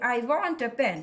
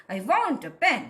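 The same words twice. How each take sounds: First: Said in the usual way. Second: "want" and "pen" stressed, "a" kept weak; stress and intonation. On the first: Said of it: "तो with stress and intonations". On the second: Shown as a demonstration. Teacher showing how to pronounce it, stress on "want" and "pen". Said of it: "with stress and intonations".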